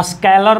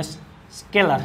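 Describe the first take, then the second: First: "स्केलर" misread as "a-SKAI-lar"; wrong pronunciation. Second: "स्केलर" as "SKE-lar", lower and softer; correct pronunciation. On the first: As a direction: say "स्केलर" with an "ai" vowel, louder. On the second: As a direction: say "स्केलर" with a plain "e" vowel. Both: Shown as a demonstration. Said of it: "और स्केलर नहीं".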